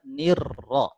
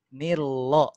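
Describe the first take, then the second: First: The r is trilled strongly and clearly. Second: The r has no trill at all. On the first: "Jadi tidak kita baca" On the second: "kalau getar hilang kan artinya jadi cadel"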